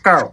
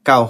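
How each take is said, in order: First: The word is said in an exaggerated English-style accent. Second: The word is said in a plain local accent. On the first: "অ্যালসর ভাষায় যেটা হয় এটা হইব কাউ" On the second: "local ভাষায় কাউ হয়"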